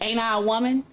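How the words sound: It is said with an angry, forceful edge. "You can put some anger behind it"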